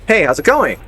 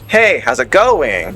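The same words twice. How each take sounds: First: The voice rises at the end. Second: The voice falls at the end. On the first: "they normally like"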